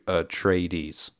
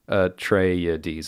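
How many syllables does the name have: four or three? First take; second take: three; four. First: The name is said with three syllables. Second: The name is said with four syllables. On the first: "as opposed to Atreides" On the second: "Frank Herbert says Atreides. It's like four syllables"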